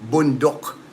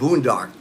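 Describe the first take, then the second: First: The word is said the Filipino way. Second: The word is said the American way. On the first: "That's how it's pronounced here" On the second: "It's pronounced boondock in in the U S"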